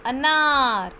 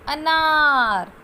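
First: अनार with a short clipped अ; teacher modelling the correct अनार; short a demo. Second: अनार said very slowly and loud, syllable by syllable; teacher sounding अनार out slowly. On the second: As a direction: spell out अनार slowly and loudly for the child. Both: Shown as a demonstration. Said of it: "आनार नहीं है ये".

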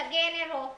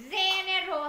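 First: "general" starting with a hard g as in "go". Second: "General" starting with a soft z-like g. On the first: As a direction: offer the wrong "general", with a "gh" sound. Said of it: "General hay là general?". (đọc "general" với âm đầu "gờ") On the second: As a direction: model "General" with a buzzing soft first consonant. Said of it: "General là chữ G". (đọc "General" với âm đầu "dờ") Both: Shown as a demonstration.

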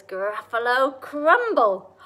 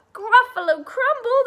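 First: Slow, loud GRUFFALO CRUMBLE; relished threat. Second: High, loud acted shriek; horrified Gruffalo. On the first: Acted. Mouse names a favourite food to the Gruffalo, slow relished threat. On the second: Gruffalo hears the mouse's threat, shrieking in acted horror.

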